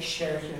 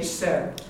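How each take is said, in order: First: The first consonant is a slender s sound. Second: The first consonant is a broad s sound. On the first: This is how the speaker's own dialect says it. "we say it like a slender S" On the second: This is how it is said in Connemara and Ulster. "it's pronounced like a broad S in Connemara and Ulster"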